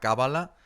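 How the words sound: The word is said with a Spanish pronunciation. "alguien en castellano de España te dirá Cábala"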